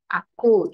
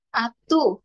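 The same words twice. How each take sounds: First: Said in the usual way. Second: Put-on "Atu" with a t for the k, a toddler's slip; lisped toddler word. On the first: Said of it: "masih pelat ya". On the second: Shown as a demonstration. Teacher showing parents a lisping child's "Atu". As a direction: say "Atu" as a small child would, t instead of k. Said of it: "meskipun mungkin masih pelat ya".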